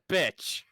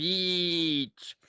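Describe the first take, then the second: First: The vowel is short, like in 'bit'. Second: The vowel is long, like in 'be'. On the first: The speaker calls it wrong. "you sound like my wife when she says" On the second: The speaker calls it right. "No. Beach. Be each"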